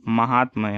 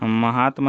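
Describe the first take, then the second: First: Said in the usual way. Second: महात्म ending short after "tma"; missing final syllable. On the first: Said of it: "होगा". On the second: Shown as a demonstration. Teacher showing the wrong form, महात्म without final ya. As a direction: leave the "ya" off महात्म. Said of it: "नहीं हो".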